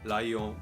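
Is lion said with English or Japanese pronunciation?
Japanese. It is said with Japanese sounds. The speaker calls it wrong. "Not lion"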